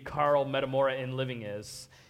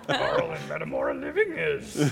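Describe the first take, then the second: First: It is said in his normal voice. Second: It is said in a Yoda impression.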